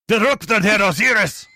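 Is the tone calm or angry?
angry. It is said forcefully, with an angry tone.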